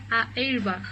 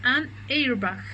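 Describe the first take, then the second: First: "a airbag", the wrong form shown as awkward; wrong article. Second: "An airbag", with a slow linked "an"; an before a vowel. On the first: Teacher to students, showing "a airbag" as the mistake. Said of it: "No, la verdad no suena bien". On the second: Teacher to students, slow model of "An airbag". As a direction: say "An airbag" slowly, joining an to airbag. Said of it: "se utiliza A N". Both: Shown as a demonstration.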